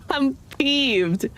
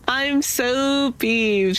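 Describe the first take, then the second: First: Said in the usual way. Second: Slow, stretched "so" in "I'm so peeved"; drawn out so. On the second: Real, not acted. To stream viewers, after losing loot, a slow "so". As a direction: lean long on "so", slowly.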